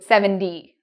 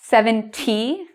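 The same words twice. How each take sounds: First: The middle consonant sounds like a soft D. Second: The middle consonant is a clear T sound. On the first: "it changes to seventy with a D Y" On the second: "Instead of saying seventy"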